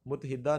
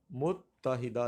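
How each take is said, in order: First: متحدہ shortened to mut-hida; wrong pronunciation. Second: متحدہ slowly as mut-ta-hida; correct pronunciation. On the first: Teacher rejects common form, deliberate mispronunciation. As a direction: drop the middle ta from متحدہ. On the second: Teacher answers own question, slow careful pronunciation. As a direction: hold the double t in متحدہ. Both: Shown as a demonstration. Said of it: "متحدہ نہیں ہے".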